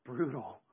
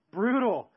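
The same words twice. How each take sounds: First: Said in the usual way. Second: Brutal said high and loud; Brutal, blurted louder and higher; loud emphatic. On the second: Shown as a demonstration. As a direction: bark out Brutal with force. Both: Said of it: "word repeated, second one loud".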